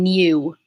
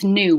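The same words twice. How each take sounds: First: It is said with a y sound. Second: It is said without a y sound. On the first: The speaker calls it wrong. "We're not saying new" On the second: The speaker calls it right. "Same with new"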